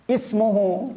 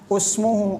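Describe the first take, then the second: First: The word begins with an i vowel. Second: The word begins with a u vowel. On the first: The speaker calls it right. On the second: The speaker calls it wrong. "bukan usmuhu"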